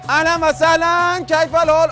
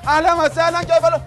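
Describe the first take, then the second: First: The greeting sounds warm and welcoming. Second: The greeting sounds harsh and angry. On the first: The person is welcomed kindly. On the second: The person is about to be punished.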